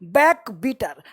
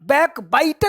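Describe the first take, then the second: First: The second part is said with an 'ee' vowel. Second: The second part is said with an 'eye' vowel. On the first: The speaker calls it wrong. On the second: The speaker calls it right.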